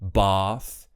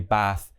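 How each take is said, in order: First: It is said in an RP British accent. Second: It is said in a non-RP accent. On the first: The speaker calls it right. "RP style" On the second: The speaker calls it wrong. "So we don't say bath"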